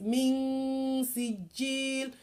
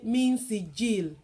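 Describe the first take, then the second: First: The n sound is lengthened and held a little. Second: The n sound is short and not held. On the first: The speaker calls it right. "Why did we elongate that a little bit?" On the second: The speaker calls it wrong. "why didn't we say min sijil?"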